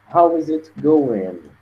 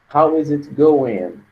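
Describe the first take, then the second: Both takes have the same delivery.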